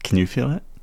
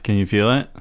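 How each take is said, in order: First: It is said in a low, sultry voice. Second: It is said in a plain, ordinary voice.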